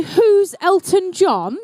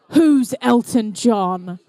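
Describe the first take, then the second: First: Put-on quoting the child. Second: Put-on lower, slowed echo of the child's question; disbelieving repeat. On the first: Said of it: "Did someone just say". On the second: Oh, my goodness.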